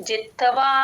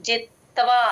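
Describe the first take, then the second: Both takes have the same delivery.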